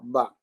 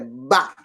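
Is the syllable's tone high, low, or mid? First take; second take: mid; high. First: The syllable is said on a level mid tone. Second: The syllable is said on a high tone. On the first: "eu pronunciei sem acento" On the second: "O agudo é ba"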